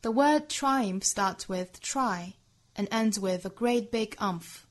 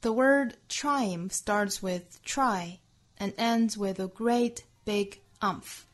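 First: It is said in a British accent. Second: It is said in an American accent.

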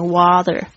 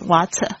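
First: The t sounds soft, close to a d. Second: The t is a clear, crisp t sound. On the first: "美式发音呢，你会听到是它常常是念water" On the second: "英式可能会把它发的比较好，这个就是干净一点"

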